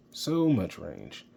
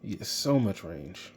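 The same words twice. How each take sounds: First: So much range, drawn out slowly with weight on so; slow emphatic repeat. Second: Said in the usual way. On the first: Shown as a demonstration.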